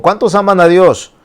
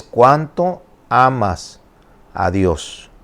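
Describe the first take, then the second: First: High, loud call to the crowd; rallying the congregation. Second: Slow, weighty "cuánto", dropping away on "Dios"; stress on cuánto. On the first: Acted. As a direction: throw the question out for a show of hands. Acts rallying question to congregation. (pregunta lanzada en alto a la congregación) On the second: Shown as a demonstration. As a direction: spell out "cuánto" slowly as the real question. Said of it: "la pregunta no es cuántos". (énfasis pausado en «cuánto», bajando al final)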